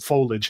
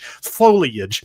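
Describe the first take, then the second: First: The word is said the less common way. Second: The word is said the more common way.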